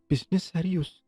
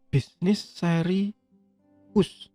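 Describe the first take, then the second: First: The word is said joined as one word. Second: The word is split into two separate parts. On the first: It reads as serious business. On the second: It reads as a domain name ending in us.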